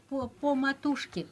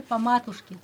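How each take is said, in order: First: "po matushke" with a clear, drawn-out O; "po" held as a plain O; full O in po. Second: "po matushke" said "pa MA-tushke"; unstressed O as A. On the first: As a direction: say "po" slowly with a round, full O. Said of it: "Par exemple, tu dis po". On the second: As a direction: reduce "po" to a short pa. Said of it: "il faut dire po matushke". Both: Shown as a demonstration.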